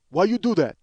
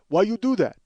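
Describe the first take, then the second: First: Louder, accusing clerk voice; clerk's accusing question. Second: Louder, pressing clerk voice; clerk's accusing question. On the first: Clerk confronting comedian over buying food, accusing. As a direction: mimic the blunt clerk. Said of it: "looks at me and goes". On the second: Clerk repeating his challenge to comedian, accusing. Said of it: "He goes". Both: Retold or imitated.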